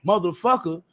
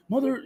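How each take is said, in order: First: Said in the usual way. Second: Higher-pitched stab at a Scottish accent; attempted Scottish accent. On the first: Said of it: "instead of saying". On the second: Shown as a demonstration. Host imitating his partner cursing, attempted Scottish accent. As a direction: try a Scottish accent, breaking off. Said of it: "it'll come out in a Scottish accent".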